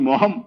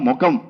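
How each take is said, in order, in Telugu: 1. మధ్య హల్లు h ధ్వని. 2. మధ్య హల్లు సాధారణ k ధ్వని. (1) "కా మొత్తం ఎగరగొట్టి హా పట్టుకొని" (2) "దాన్ని సరళం చేసుకొని ప్రజలకు అనుకూలంగా"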